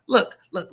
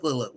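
First: Higher, louder "Look, look"; urgent call for attention. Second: Said in the usual way. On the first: Real, not acted. Host demanding viewers' attention before final thoughts, urgent. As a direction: snap the listener's focus.

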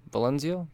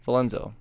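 First: Valenzio said as a doubtful guess ending on a question; unsure wrong name. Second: Valenzo said firmly, vuh-LEN-zo, settling it; corrected name. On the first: Host doubting the character's name, unsure. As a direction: try Valenzio like you are not sure. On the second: Host correcting himself on the name, firm. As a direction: land Valenzo as the right one. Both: Shown as a demonstration. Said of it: "I was saying it right earlier".

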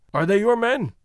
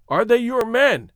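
First: Said in the usual way. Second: More insistent, pitched up; impatient. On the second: A narrator's reading. Man repeats his question when companion does not answer, impatient. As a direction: press the question with mild impatience. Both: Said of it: "he repeated impatiently".

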